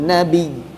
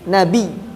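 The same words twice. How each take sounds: No difference in how they are said.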